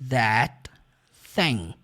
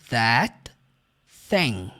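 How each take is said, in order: The two takes are said the same way.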